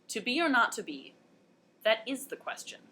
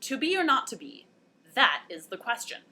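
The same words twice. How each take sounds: First: The stress falls on 'is'. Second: The stress falls on 'that'.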